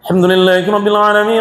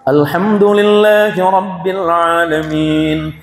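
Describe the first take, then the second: First: It is recited very fast, words run together. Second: It is recited at a moderate speed. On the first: "Dengan kecepatan tiga ratus enam puluh kilometer per jam" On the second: "Boleh tadwir di pertengahan"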